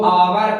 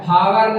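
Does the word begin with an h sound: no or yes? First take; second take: no; yes. First: The word begins with a vowel sound. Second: The word begins with an h sound. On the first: The speaker calls it right. "इसको आवर पढ़ते हैं" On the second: The speaker calls it wrong. "आधा बच्चा इसको हावर पढ़ता है, हावर नहीं"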